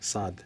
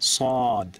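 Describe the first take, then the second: First: The vowel is an open, unrounded a. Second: The vowel is a deep, rounded o. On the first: The speaker calls it wrong. "আমাদের বাংলায় বলা হয় সাদ, সাদ ঠিক না" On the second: The speaker calls it right.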